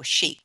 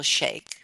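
First: "sheik" said like "sheek". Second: "sheikh" said like "shake". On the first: Storyteller offering the other way to say it, "sheik" as "sheek". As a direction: say "sheik" with a long ee, as in seek. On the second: Storyteller offering one way to say it, "sheikh" as "shake". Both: Shown as a demonstration. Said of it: "whichever way you say it".

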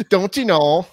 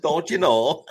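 First: Laughing, higher and louder Minnesotan; Minnesota accent. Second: Higher, louder Minnesotan echo; Minnesota accent. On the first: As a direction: giggle through a Minnesotan "Don't you know". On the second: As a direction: play back the Minnesotan "Don't you know" brightly. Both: Acted. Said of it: "Minnesota accent bit".

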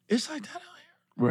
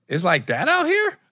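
First: Hushed, high, slow question; discreet disbelief. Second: High, drawn-out disbelief; incredulous question. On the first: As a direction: lean in and ask it under your breath, stretched out. Retold discreet second asking. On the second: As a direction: retell it as an astonished, rising question. Retold surprised question to promoter. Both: Retold or imitated.

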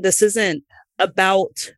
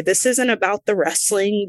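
First: "This isn't about" said slowly, each word weighted; stressed "This isn't about". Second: Said in the usual way. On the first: Retold or imitated. Wrestler venting about the locker room, stressing "This isn't about". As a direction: drag out "This isn't about" to drive it home. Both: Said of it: "And I was like".

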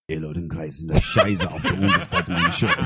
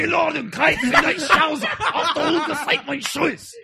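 First: Low, gentle German menace, laughing through it; soft German. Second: High-pitched hammed-up German bark, laughing; yelling German. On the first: Pretend. A soft German line whispered to a friend on the show, low and laughing. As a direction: purr the German line softly like a villain. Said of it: "I'll do the soft German". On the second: Angry German version asked for by his co-host, high and hammy. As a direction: shout the German like an angry movie officer. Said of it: "I'll do the yelling one".

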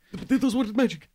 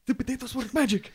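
First: Excited shout. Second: Squeaky excited shout. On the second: Repeated, higher, odd voice. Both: Acted.

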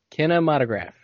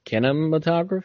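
First: Kinematograph. said firmly with a falling, final tune; having worked the word out, state it plainly; settled try. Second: Kinematograph? asked with a rising, doubtful tune; first hesitant stab at kinematograph; unsure try. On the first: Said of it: "Can you say it again?". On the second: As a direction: sound out kinematograph like a question. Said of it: "I don't know what that is". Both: Shown as a demonstration.

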